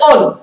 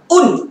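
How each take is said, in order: First: The vowel is an open 'o' sound. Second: The vowel is a rounded 'u' sound. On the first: The speaker calls it wrong. "tidak boleh on" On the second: The speaker calls it right. "bunyinya un"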